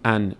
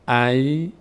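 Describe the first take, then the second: First: The syllable ends with a clear n sound. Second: The syllable ends with a y sound. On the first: The speaker calls it wrong. "نمیگیم ان" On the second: The speaker calls it right. "میگیم ای"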